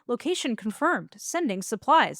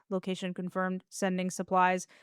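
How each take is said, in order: First: It is said with lively, human expression. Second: It is said flat and emotionless. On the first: The speaker seems human with a personality. The speaker calls it wrong. "I don't want you to have a personality" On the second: The speaker is a machine without feelings. The speaker calls it right. "as a robot, he's super deadpan"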